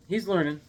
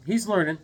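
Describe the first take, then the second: No difference in how they are said.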